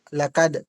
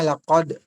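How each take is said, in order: First: The consonant is a thin, light k sound. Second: The consonant is a thick, deep q sound. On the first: The speaker calls it wrong. "yung bigas mo ay ka, lakad" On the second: The speaker calls it right. "Kailangan lakod. Parang makapal ba?"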